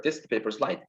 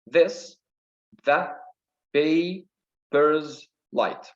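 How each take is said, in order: First: Said in the usual way. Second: Very slow, broken into beats; syllable by syllable. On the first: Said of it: "Okay, let's take this". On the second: Shown as a demonstration. Teacher counting a line's syllables, syllable by syllable. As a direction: count out "paper's light" piece by piece. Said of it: "Here we got five syllables".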